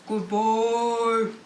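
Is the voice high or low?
low. The word is said in a low, deep voice. "Put on your deep voice"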